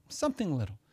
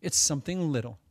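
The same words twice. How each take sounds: First: Softer repeat of the phrase; quiet repetition of something little; soft echo. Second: Said in the usual way. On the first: Shown as a demonstration. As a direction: let the echo drop away.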